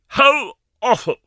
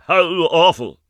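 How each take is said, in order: First: Loud, high, drawn-out horror; groaning exclamation. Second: Repeated cry of horror, a bit quicker; horrified. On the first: Ma collapses in the armchair, loud horror. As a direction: wail it out in shock. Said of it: "dropped groaning into a vacant armchair". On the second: Ma repeats her shock to the girls, horrified. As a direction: say it again, still shocked. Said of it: "dropped groaning". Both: Acted.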